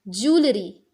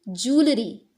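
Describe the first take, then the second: Both takes have the same delivery.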